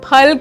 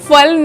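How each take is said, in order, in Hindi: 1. यह शब्द aspirated p ध्वनि से शुरू होता है। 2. यह शब्द f ध्वनि से शुरू होता है। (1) "हम फल खाते हैं" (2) "हम फल नहीं खाते"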